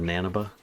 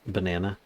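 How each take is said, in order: First: The syllables come in a swapped order. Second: The syllables come in their normal order. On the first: The speaker calls it wrong. "instead of" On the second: The speaker calls it right. "trying to get me to um to say"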